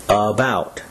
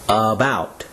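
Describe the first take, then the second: The two takes are said the same way.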